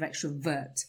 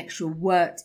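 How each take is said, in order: First: The middle consonant is a clear v. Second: The middle consonant sounds like a w. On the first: The speaker calls it right. "A V sound" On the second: The speaker calls it wrong. "you said then instead of when and extrovert instead of extrovert"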